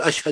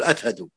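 First: The consonant is pronounced as sh. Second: The consonant is pronounced as th. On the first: "ما ينطق الشين شين" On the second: "ينطقها ثاء"

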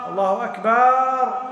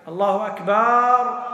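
No difference in how they are said.

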